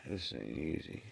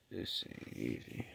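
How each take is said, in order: First: Said in the usual way. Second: Whispered and much softer, worn out; real sick, spent whisper; exhausted whisper. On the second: Real, not acted. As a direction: let it fade to a breathless whisper.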